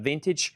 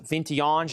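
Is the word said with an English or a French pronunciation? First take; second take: English; French. First: The word is said with an English pronunciation. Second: The word is said with a French pronunciation.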